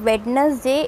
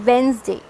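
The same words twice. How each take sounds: First: Slow, all letters sounded; "Wednesday" spoken as Wed-nes-day with the d and e; wrong Wednesday. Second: Wednesday as Wenz-day; "Wednesday" said Wenz-day with d silent; correct Wednesday. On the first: Teacher showing the spelling-based mistake: slow wrong Wednesday. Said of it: "it is not Wednesday". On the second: Teacher modelling the word: correct Wenz-day. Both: Shown as a demonstration.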